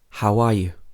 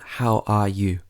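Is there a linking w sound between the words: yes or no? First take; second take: yes; no. First: A w sound links the vowels between the words. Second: The words are said separately without a linking sound. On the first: The speaker calls it right. "we've added a w sound in between these two vowel sounds" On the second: The speaker calls it wrong. "not how are you"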